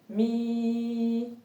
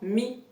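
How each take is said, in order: First: The vowel is held long. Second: The vowel is short. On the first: "il va être prolongé" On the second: "c'est une kasra"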